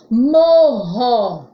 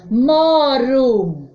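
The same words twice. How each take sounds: First: "Morro" with RR like H; strong R. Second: "Moro" with a single tapped R; weak R. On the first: Teacher contrasts sounds for pupils, strong h-like RR in "Morro". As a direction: sound out "Morro", breathy h in the middle. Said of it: "Som forte". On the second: Teacher contrasts sounds for pupils, weak tapped R in "Moro". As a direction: sound out "Moro", tongue flicking once on R. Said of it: "Som fraco". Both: Shown as a demonstration.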